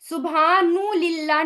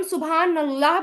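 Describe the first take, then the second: First: सुभानु लिल्लाह with an added उ after न; wrong form. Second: सुभान अल्लाह with a plain न, no added vowel; correct form. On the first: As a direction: add a short u, सुभानु, to show the mistake. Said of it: "नहीं बोलते". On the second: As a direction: say सुभान अल्लाह cleanly, न then अल्लाह. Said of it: "सुभान अल्लाह बोलते हैं". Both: Shown as a demonstration.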